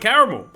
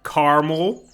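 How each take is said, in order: First: The vowel after the R is clearly said. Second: The vowel after the R is dropped entirely. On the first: The speaker calls it right. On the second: The speaker calls it wrong.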